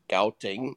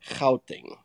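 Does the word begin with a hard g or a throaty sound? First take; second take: hard g; throaty. First: The word begins with a plain hard g sound. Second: The word begins with a rough throaty sound. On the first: The speaker calls it wrong. "what you guys mentioned as Gauteng" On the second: The speaker calls it right. "clear your throat for the first part"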